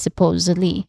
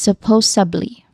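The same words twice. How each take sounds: First: It has a d sound before the ending. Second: It has a b sound before the ending. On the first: The speaker calls it right. "the correct pronunciation is supposedly" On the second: The speaker calls it wrong. "some people do is they pronounce the word as supposedly. Instead of the sound, they use the b sound"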